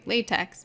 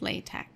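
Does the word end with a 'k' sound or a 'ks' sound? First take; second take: ks; k. First: The word ends with a ks sound. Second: The word ends with a k sound. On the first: It names the rubber material. The speaker calls it wrong. "It almost looks like latex, but it's not" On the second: It names the typesetting system. The speaker calls it right. "It's not the way it's spelled with the, the X"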